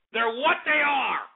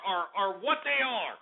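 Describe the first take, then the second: First: "what they are" pushed higher and slower; slow, raised stress on "what they are"; emphatic repeat. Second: Said in the usual way. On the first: Real, not acted.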